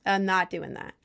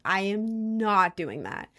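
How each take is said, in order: First: Said in the usual way. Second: "I am not doing that" slowed, with weight on "not"; firm refusal. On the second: Retold or imitated. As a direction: spell out the no, word by word. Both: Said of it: "I was like".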